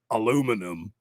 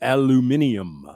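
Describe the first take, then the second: First: It is said with four syllables, American style. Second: It is said with five syllables, British style. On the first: This is how American speakers say it. "Here in the U S, or just Hicks, we say aluminum" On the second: This is how British speakers say it. "the Brits say aluminium"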